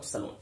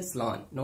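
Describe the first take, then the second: First: सैलून said the Indian way, "sae-loon"; the usual "sae-loon" version of सैलून; wrong pronunciation. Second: सैलून clipped to "slun"; correct pronunciation. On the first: Teacher shows viewers the wrong सैलून, "sae-loon". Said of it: "not सैलून". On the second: Teacher drills सैलून for viewers, said as "suh-LON". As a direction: say सैलून as "suh-LON", not "sai-loon". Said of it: "आज से बोलेंगे". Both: Shown as a demonstration.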